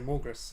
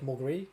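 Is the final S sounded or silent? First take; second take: sounded; silent. First: The final S is clearly sounded. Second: The final S is silent. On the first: This is how a New Zealander would say the name. "I just always say Morgus, like a Kiwi" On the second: This is the French way of saying the name. "the S is apparently not pronounced like that for the French names"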